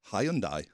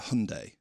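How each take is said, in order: First: The name is pronounced the British way. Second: The name is pronounced the American way. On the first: "In England" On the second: "So you guys say"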